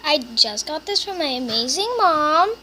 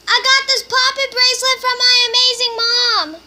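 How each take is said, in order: First: Said in the usual way. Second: Much louder, higher repeat for mom; calling to mom in another room. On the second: Real, not acted. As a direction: shout it so mom hears.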